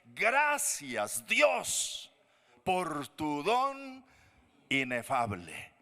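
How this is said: It is said with strong exclamation.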